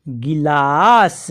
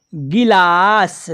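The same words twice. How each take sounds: First: गिलास drawn out slowly, short i in गि; slow syllable reading. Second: गिलास slowly, गि stretched into a long ee; wrong long ee reading. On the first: Teacher reading गिलास slowly for the class. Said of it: "और सा". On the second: Teacher showing the wrong reading to students. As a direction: drag गि in गिलास too long. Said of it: "बड़ी ई की मात्रा का उच्चारण करेंगे". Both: Shown as a demonstration.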